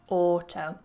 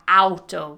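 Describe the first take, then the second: First: The first vowel is the plain 'or' sound. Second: The first vowel is the diphthong 'ow'. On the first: The speaker calls it right. "we say auto ... not pronouncing it with that diphthong, but with an or" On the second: The speaker calls it wrong. "we don't say auto"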